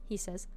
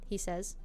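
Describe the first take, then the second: Both takes have the same delivery.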